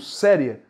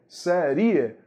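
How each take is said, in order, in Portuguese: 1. A tônica cai na sílaba 'se'. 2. A tônica cai na sílaba 'ri'. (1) "Mas eu digo série" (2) "Se ele fosse vogal, não seria série. Seria seria"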